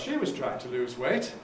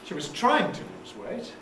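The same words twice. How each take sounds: First: The main stress falls on the word she. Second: The main stress falls on the word trying. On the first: She did it, unlike other people. "even if you're not, or even if the others aren't" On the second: She attempted it but did not succeed. "It means but she didn't succeed"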